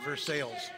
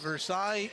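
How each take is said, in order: First: Versailles is said the Illinois way. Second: Versailles is said the French way.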